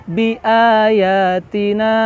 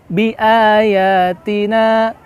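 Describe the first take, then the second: No difference in how they are said.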